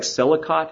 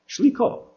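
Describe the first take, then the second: First: It is read the way the spelling looks. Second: It is given its Hebrew pronunciation. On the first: The speaker calls it wrong. "looks like Selikot" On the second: The speaker calls it right. "it's Hebrew, so might as well pronounce it that way"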